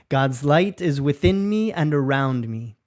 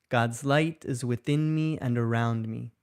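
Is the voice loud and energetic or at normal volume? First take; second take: loud; normal. First: It is spoken loudly with lots of energy. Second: It is spoken at an ordinary conversational volume. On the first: "in a loud, energetic voice" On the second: "in a normal speaking voice"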